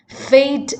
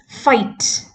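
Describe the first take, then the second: First: The word is said in a standard accent. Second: The word is said in an Australian accent.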